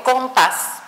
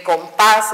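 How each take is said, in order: First: Compás mis-stressed as COM-pas; wrong first-syllable stress. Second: Compás with PÁS stressed, com light; stress on last syllable. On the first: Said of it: "No digo compás". (compás mal acentuado en com) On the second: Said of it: "está en la última". (compás con acento en la última, pás) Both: Shown as a demonstration.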